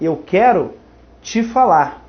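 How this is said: The word te is run into falar. The speaker calls it wrong. "você está aprendendo o T ao falar"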